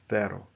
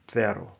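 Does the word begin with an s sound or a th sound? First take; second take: th sound; th sound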